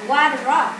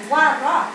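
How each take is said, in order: No difference in how they are said.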